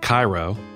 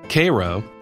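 First: The name is said in the usual standard pronunciation. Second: The name is said in a Southern local pronunciation. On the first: This is how the Egyptian city's name is said. The speaker calls it wrong. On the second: This is how the Georgia town's name is said. The speaker calls it right. "it's pronounced a distinctly southern way"

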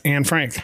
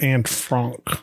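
First: The surname is said the familiar English way. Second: The surname is said with an unusual foreign vowel. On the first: This is the version the public knows. The speaker calls it right. "everybody knows it as Anne Frank" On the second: This is the version the director insisted on. The speaker calls it wrong. "the director insisted on them pronouncing it Franck"

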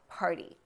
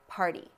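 First: The t is a quick light tap. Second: The t is a quick light tap.

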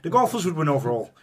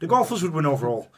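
First: It is spoken in a put-on Irish accent. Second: The same.

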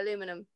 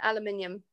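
First: The word is said the American way. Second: The word is said the British way. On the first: "But I say aluminum" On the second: "aluminium is how you say it here in the UK"

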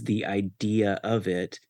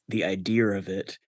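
First: No r sound is inserted after idea. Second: An r sound is inserted after idea. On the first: "Like the phrase" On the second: "pronouncing that as"

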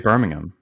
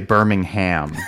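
First: The h in the final syllable is silent. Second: The h in the final syllable is pronounced. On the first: This is the local way of saying it. The speaker calls it right. "I think you just say Birmingham. The H is just. Silent" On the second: This is the American way of saying it. The speaker calls it wrong. "You don't say Birmingham. I think that's very American"

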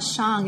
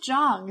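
First: The name starts with a voiceless 'sh' sound. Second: The name starts with a voiced 'zh' sound. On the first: This is the Lhasa pronunciation of the name. "is that the way you pronounce his name? / That's the Hlasa pronunciation" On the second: This is how the name is read elsewhere, as in Chinese. "as a Chinese specialist here, I'm looking at that name and thinking, oh, it's Zhang"

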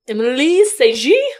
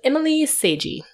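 First: The name is said in a French accent. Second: The name is said in a plain English accent. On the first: The speaker calls it right. "how would you say it with a French accent?" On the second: The speaker calls it wrong. "I'm sure I'm pronouncing that wrong"

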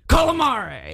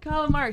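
First: The word is said in a Boston accent. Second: The word is said in a plain accent.

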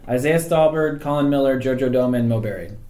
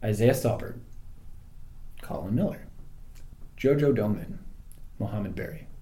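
First: The names are said at normal speed. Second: The names are said more slowly.

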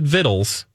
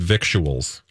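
First: It is said short, with no 'k' sound. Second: It is said as spelled, with a 'k' sound. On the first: The speaker calls it right. "you pronounce it vittles" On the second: The speaker calls it wrong. "You do not pronounce it victuals"

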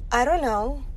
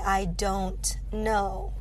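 First: The words are reduced and run together. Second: Every word is pronounced fully and clearly. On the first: The speaker calls it right. "we would say something like" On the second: The speaker calls it wrong. "pronouncing it so clearly"

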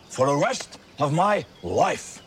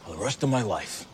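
First: It is said loudly. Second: It is said quietly.

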